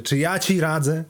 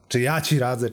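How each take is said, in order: First: Repeated question pushed much higher; heightened rhetorical echo. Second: Rhetorical echo. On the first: Computer repeats the student's question, heightened and rhetorical. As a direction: throw it back harder, pitched up. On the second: Computer asked for advice questions it back, rhetorical echo. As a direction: question thrown back, moderately pitched. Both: Acted.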